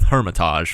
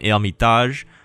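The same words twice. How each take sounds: First: The word mixes English and French pronunciation. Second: The word is said with a French pronunciation. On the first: This is a compromise between both ways. "maybe I'll blend the two" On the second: This is how French speakers say it. "if you're French, you probably call this one Hermitage"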